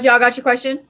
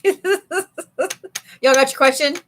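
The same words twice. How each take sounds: First: Said in the usual way. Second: Slow, laughing through the question. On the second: Real, not acted. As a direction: stretch it out while cracking up. Repeats question while laughing.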